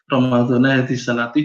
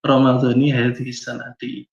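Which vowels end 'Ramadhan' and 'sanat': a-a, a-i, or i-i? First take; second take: a-i; i-i. First: Ramadhan ends in a, sanat ends in i. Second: Both Ramadhan and sanat end in a short i. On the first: The speaker calls it wrong. "udah wis terlanjur uh, lanyah di lidah" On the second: The speaker calls it right.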